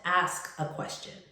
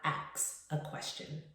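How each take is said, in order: First: The verb ends with an 'sk' sound. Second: The verb ends with a 'ks' sound. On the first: The speaker calls it right. "enunciating the S K" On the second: The speaker calls it wrong. "not substituting the S K with an X"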